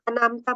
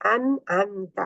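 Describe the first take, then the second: First: The middle consonant is a plain glottal stop. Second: The middle consonant is a deep throat sound. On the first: The speaker calls it wrong. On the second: The speaker calls it right.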